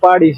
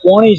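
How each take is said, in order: First: The middle consonant is a d-like flap sound. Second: The middle consonant is a nasal n sound. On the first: The speaker calls it wrong. "તું પાડી છે" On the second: The speaker calls it right. "આ પોણી છે"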